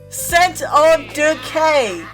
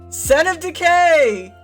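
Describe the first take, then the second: First: The name is said slowly and deliberately. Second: The name is said at normal speed.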